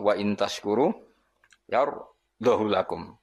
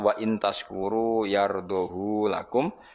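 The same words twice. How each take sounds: First: The vowel of "hu" is kept short. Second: The vowel of "hu" is drawn out long. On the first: "tampa isba" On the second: "isba berarti normal"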